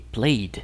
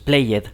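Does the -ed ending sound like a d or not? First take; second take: d sound; not d. First: The ending sounds like a d. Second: The ending does not sound like a d. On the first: The speaker calls it right. "esto va a sonar como D también" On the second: The speaker calls it wrong. "no es played"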